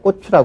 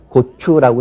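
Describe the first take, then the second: First: The first consonant is a tense kk sound. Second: The first consonant is a plain k sound. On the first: The speaker calls it wrong. "경음화 현상" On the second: The speaker calls it right. "고추라고 해야 될 거"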